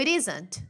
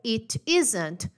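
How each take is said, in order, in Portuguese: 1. O t vira um flap rápido, parecido com r. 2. O t é um som de t claro e separado.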